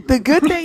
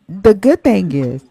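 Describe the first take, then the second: First: Giggling through the words after a burp; laughing. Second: Burping. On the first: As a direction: laugh it off, embarrassed. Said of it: "I apologize". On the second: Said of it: "I'm sorry, I'm burping". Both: Real, not acted.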